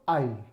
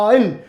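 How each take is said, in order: First: It is said softly in a normal way. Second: It is said loudly and forcefully.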